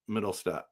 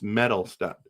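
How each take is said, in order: First: The name starts with the sound 'mid'. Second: The name starts with the sound 'met'. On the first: The speaker calls it wrong. "middles, not middle" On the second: The speaker calls it right. "It's Metal Step"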